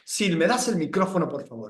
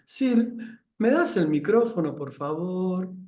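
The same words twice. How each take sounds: First: The tone is authoritarian and commanding. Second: The tone is pitiful, like a victim.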